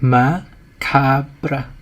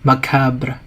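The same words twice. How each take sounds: First: It is read plainly as spelled in English. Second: It is said with a French-style pronunciation. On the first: The speaker calls it wrong. "យើងអាចនឹងអានវាថា macabre" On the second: The speaker calls it right. "យើងអានពាក្យនឹងតាមរបៀបភាសាបារាំង"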